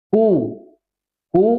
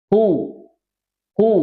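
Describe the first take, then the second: No difference in how they are said.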